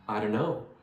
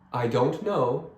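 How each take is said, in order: First: The words run together fast as one word. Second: Each word is said separately and clearly.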